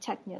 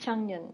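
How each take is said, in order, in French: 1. La première syllabe se termine par un son k. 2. La première syllabe se termine par un son ng. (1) "et non Changyun" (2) "ils disent Changyun"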